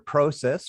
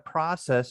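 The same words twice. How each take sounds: First: The first vowel is a rounded 'oh' sound. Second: The first vowel is an open 'ah' sound.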